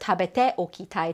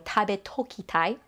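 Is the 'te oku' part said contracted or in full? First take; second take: full; contracted. First: The te and oki are said as separate syllables. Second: The te and oki merge into one toki. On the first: "Instead of" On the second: "shortened as toku"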